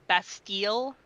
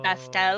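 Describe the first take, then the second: First: The last syllable has a long ee vowel. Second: The last syllable has a short e vowel. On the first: The speaker calls it right. "it's the hard E" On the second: The speaker calls it wrong. "and not"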